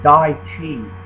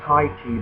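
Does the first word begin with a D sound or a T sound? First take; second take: D sound; T sound. First: The first word begins with a D sound. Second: The first word begins with a T sound. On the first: The speaker calls it right. "the T is a D sound" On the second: The speaker calls it wrong. "A lot of people mispronounce it"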